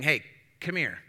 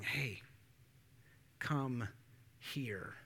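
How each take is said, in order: First: It sounds stern, like a parent or boss. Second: It sounds warm, like a friend or lover.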